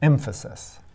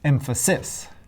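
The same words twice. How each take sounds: First: The stress falls on the first syllable. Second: The stress falls on a later syllable. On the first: The speaker calls it right. "The first syllable is stressed, and the last two are unstressed" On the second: The speaker calls it wrong. "Hopefully that doesn't sound right to you"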